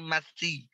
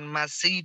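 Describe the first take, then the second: First: The consonant has no hissing sound. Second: The consonant is a hissing s sound. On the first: The speaker calls it right. "Dia tidak punya desis" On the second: The speaker calls it wrong. "jangan ada desis"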